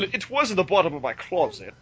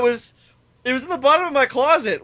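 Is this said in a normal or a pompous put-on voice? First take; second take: pompous; normal. First: It is said in a pompous put-on voice. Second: It is said in the speaker's ordinary voice.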